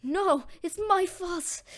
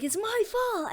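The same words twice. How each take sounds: First: High, slow, drawn-out lament; sad self-blame. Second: Higher, quicker acted outcry; distressed self-blame. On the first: Acted. Deku seeing Bakugo captured, sad self-blame. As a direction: wail it slowly, as mild mock despair. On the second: Deku leaping the fence, distressed self-blame. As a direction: cry it out high in mock distress. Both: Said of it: "really sad".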